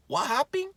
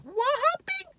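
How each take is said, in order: First: Very high, put-on questioning squeak; high startled voice. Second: Extremely high, mock falsetto squeal; an octave higher. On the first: Man woken in someone else's car, high mock-startled question. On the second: Car intruder asking once more, absurdly high mock squeal. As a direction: shoot the question up into a squeak. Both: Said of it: "It just goes the octave higher".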